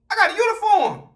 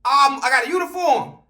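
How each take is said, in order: First: Raised pitch, different timbre; high thinking-to-self voice; high inner voice. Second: Said in the usual way. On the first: Retold or imitated. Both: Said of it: "in my mind".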